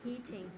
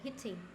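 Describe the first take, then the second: First: The first vowel is long. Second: The first vowel is short. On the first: The speaker calls it right. "Heat mình sẽ là âm y dài, mình đọc dài trong tí" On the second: The speaker calls it wrong. "mình không đọc là heating. Not this one"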